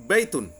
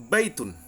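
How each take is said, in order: Both takes have the same delivery.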